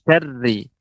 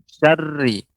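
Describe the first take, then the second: First: The r is rolled with only slight vibration. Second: The r is rolled with only slight vibration.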